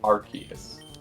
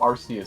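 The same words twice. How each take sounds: First: The first syllable sounds like 'ark'. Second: The first syllable sounds like 'arse'. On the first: It links the name to the arc-themed items. "All of the arc related things imply that it's like Arceus" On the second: It carries a rude double meaning. "I prefer how Arceus sounds, as well as the arse connotation"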